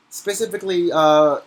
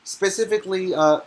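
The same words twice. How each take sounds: The two takes are said the same way.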